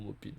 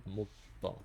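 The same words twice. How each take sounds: First: "Maupine" ending in "-peen"; Maupine with sounded n. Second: "Maupin" ending in a French nasal vowel. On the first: (« Maupine » avec le n final prononcé) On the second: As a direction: say "Maupin" as "mo-pain", final n silent. (« Maupin » avec la voyelle nasale finale) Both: Shown as a demonstration. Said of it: "je sais pas comment ça se dit".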